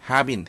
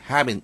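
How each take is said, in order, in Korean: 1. 두 단어 모두 완전하게, 따로따로 발음해요. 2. 두 단어는 약하게 발음되고 빠르게 이어져요. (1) "우리가 have been 이렇게 발음을 합니다만" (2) "네이티브들은 have been, have been 이렇게 발음하는 경우가 많으니까"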